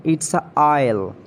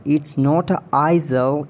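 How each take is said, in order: First: Isle said as aisle, silent s; right pronunciation. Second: Isle said as eye-zel, the s sounded; wrong pronunciation. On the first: Showing a friend the right isle, aisle. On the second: Correcting a friend's wrong isle, eye-zel. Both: Shown as a demonstration. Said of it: "you are totally mispronouncing the word".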